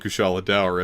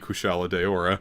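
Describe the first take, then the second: First: The words are not said as three syllables each. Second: Each word is said with three clear syllables. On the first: This is the official pronunciation. "I'm never going to call it Kushala Daora" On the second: This is the pronunciation the speaker prefers. "It's going to be Kushala Daora"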